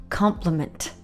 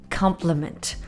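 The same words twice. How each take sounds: First: The word is said in its noun pronunciation. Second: The same.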